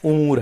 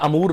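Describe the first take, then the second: First: The word begins with a 'u' vowel. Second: The word begins with an 'a' vowel. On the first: The speaker calls it right. "उमूर है" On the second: The speaker calls it wrong. "यह अमूर नहीं है"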